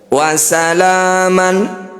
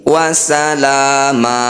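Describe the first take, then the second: First: The word ends with an n sound. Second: The word ends in a long a vowel. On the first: The phrase continues without a stop. "bunyi fathah tanwin diganti dengan fathah panjang" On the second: The reciter stops at this word. "Ketika berhenti"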